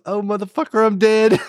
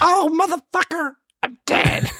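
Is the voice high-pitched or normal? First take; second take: normal; high-pitched. First: It is said in a normal-pitched voice. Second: It is said in a high-pitched voice.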